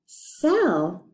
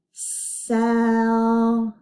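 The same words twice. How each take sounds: First: Said in the usual way. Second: Drawn-out single breath; stretched smooth blend. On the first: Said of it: "What do they sell?". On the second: Shown as a demonstration. Teacher blending a word for the class, stretched. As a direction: hold each sound into the next, long and slow. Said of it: "Let's put the s sound at the beginning".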